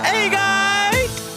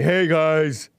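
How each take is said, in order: First: It is said in his normal, lighter voice. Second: It is said with a deeper, bassier voice.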